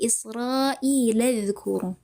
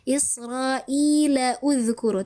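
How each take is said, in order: First: The words run together without the extra vowel. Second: A separate 'u' vowel is sounded before dhkuru. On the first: The speaker calls it right. "Tapi Israila uzkuru. Begitu" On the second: The speaker calls it wrong. "Tidak boleh Israila uzkuru. Tidak boleh seperti itu"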